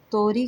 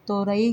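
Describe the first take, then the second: First: तोरी said as to-ree; तोरी with no vowel between r and long ee; two-syllable variant. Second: तोरई said as to-ra-ee; तोरई with a separate long ee after ra; three-syllable variant. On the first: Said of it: "कुछ लोग तोरी कहते हैं". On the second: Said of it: "कुछ लोग तोरई कहती हैं". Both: Shown as a demonstration.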